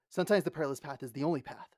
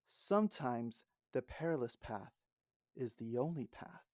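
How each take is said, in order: First: It is said quickly and forcefully. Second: It is said slowly, each word weighted.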